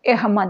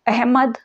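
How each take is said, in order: First: The first vowel sounds like 'e'. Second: The first vowel sounds like a short 'a'. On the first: This is the later pronunciation. "ए जैसे उच्चारित होने लगा" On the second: This is the older pronunciation. "ह के पहले का अ"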